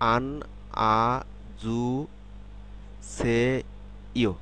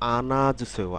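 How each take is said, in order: First: The syllables are said apart, without linking. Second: The consonant links smoothly into the next vowel.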